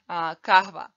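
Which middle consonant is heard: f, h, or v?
h. The word has an h sound in the middle. The speaker is from Bosnia. "if you're from Bosnia, you should say kahva"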